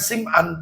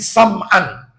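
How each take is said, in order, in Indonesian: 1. Vokal pertama adalah bunyi i. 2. Vokal pertama adalah bunyi a. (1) "namanya bukan Sim'an" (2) "tetapi Nawas bin Sam'an"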